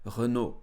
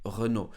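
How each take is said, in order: First: It is said with a French pronunciation. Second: It is said with a French pronunciation.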